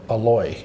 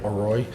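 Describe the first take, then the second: First: The middle consonant is an L sound. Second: The middle consonant is an R sound. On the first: "when you hear Thai say it, it comes out Aloy" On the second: "R O I"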